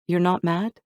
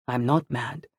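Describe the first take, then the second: First: MAD lifted into a higher question. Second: "I'm not mad" settled, not questioning; matter-of-fact answer. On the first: Targa checking Anthony has forgiven her, "mad" questioning. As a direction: ask "You're not mad?" higher, unsure. Character asks, surprised at forgiveness. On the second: Anthony reassuring Targa, "not mad" stated plainly. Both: A narrator's reading.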